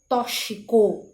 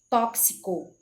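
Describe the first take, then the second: First: The x is pronounced as 'sh'. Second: The x is pronounced as 'ks'. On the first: The speaker calls it wrong. "a pronúncia do X como C H" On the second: The speaker calls it right. "a pronúncia correta seria com K S"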